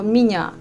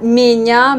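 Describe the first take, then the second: First: Меня with the unstressed first vowel reduced toward i, stress on the end; natural Russian pronunciation. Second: Меня read as spelt, with a clear E sound; wrong spelling pronunciation. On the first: Teacher shows learners the real меня, reduced vowel. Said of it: "mais je dis plutôt меня". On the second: Teacher shows French learners the wrong меня, said as spelt. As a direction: say меня exactly as written, the yé full. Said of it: "Moi, je prononce plutôt pas меня". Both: Shown as a demonstration.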